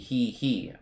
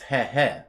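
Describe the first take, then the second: First: The vowel in each syllable is long. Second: The vowel in each syllable is short. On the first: "If it was a long e, it would be he he" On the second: "it's a short e"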